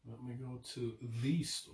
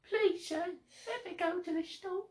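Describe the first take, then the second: First: Quiet line with "the" given a long ee; testing "the". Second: Very high, soft begging; put-on pleading voice. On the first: Shown as a demonstration. Repeating the friend's example to test "the", softly as thee. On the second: Mock-begging a sir to visit the store, tiny pleading voice. Playing a pleading character for example.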